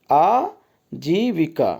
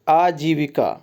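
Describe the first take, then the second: First: आजीविका very slowly, broken as aa, jee-vikaa; long vowels stretched. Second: Said in the usual way. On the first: Shown as a demonstration. Teacher showing the long ee, आजीविका stretched slowly. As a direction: draw out आ and जी in आजीविका with a pause. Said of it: "बड़ी ई". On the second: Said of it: "तो यहाँ पे देखिए बड़ी ई".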